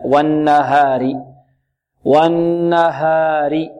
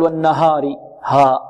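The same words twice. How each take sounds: First: Slow والنهار with an open, untilted haa; correct light haa. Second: والنهار with haa thickened to a dark 'haw'; full-mouthed, backed ها; heavy haa. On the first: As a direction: recite والنهار with a long ghunna and pure aa. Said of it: "الصحيح". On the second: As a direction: mistakenly darken the aa after h in والنهار. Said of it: "تفخيم، لا". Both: Shown as a demonstration.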